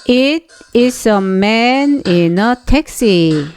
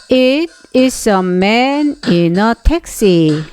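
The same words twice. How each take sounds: Both takes have the same delivery.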